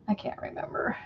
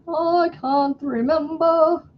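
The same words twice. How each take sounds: First: Whispered. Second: High, slow wistful sigh; high slow lament. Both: Real, not acted.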